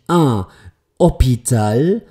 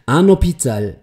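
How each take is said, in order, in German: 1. Das n wird nicht in das nächste Wort übernommen. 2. Das n fließt in das nächste Wort hinein. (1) "nicht un Hospital" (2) "ich spreche das N aus und lasse es hineinfließen"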